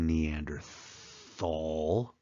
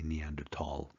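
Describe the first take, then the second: First: The last syllable begins with a th sound. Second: The last syllable begins with a plain t. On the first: The speaker calls it wrong. "They, they pronounce that T H" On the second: The speaker calls it right. "The H is silent in German, so we don't say Thal"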